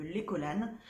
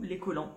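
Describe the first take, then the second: First: "collanes", ending in a sounded n; alternative pronunciation. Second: "collants", ending in a nasal vowel; alternative pronunciation. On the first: Vlogger unsure of a wool soap's name, trying "collanes" with sounded n. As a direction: say "collanes" with the final n heard. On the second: Vlogger offering the other reading, "collants" ending on a nasal vowel. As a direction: say "collants" with no n or t sounded. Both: Shown as a demonstration. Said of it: "je sais pas comment on dit".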